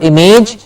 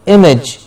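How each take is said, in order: First: Image with a long AY, "im-AYJ"; wrong pronunciation. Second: Image as "IM-ij", short second vowel; correct pronunciation. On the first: Teacher shows learners what to avoid, mispronounced "im-AYJ". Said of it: "so it's not image". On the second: Teacher gives learners the right form, "IM-ij". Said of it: "so it's not image, but image". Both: Shown as a demonstration.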